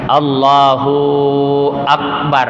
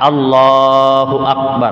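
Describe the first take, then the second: First: The vowel of 'hu' is drawn out long. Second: The vowel of 'hu' is kept short. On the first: The speaker calls it wrong. "tetapi jadi bermasalah hu-nya panjang" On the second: The speaker calls it right. "Jadi mesti a"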